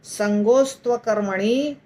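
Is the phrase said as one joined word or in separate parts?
joined. The phrase runs together as one word. "इसको अगर हम इकट्ठा करेंगे तो बहुत डिफिकल्ट होगा बोलना"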